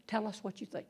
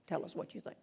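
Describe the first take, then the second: First: Quiet, gentle "Tell us what you think." said softly; soft coaxing. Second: "Tell us what you think." whispered, almost no voice. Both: Retold or imitated. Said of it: "You go up and you say".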